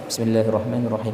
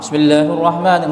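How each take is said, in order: First: It is recited only slightly louder than murmuring. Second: It is recited loudly and fully projected. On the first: It is just loud enough for others nearby to hear. "kita lebih keras sedikit seukuran orang tuh bisa mendengar" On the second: It is recited aloud the way a prayer leader does. "Tidak harus kita niku jahar seperti imam"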